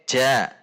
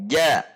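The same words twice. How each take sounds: First: The consonant is made further forward in the mouth. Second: The consonant is made further back, at mid-palate. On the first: The speaker calls it wrong. "Kalau j" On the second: The speaker calls it right. "Kalau jim"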